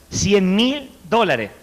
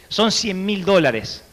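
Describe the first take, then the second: First: Hammering the amount home; slow emphatic repeat. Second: Each word weighed out, slow; slow emphasis. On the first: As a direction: stress on mil, very slow. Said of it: "repeated sum slower". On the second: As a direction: let the sum sink in. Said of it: "slow, weighed amount". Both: Shown as a demonstration.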